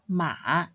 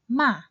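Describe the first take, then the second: First: The pitch dips low, then rises again. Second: The pitch drops sharply from mid to low. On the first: It means horse. "When read in the third tone" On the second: It means to scold. "when read in the fourth tone"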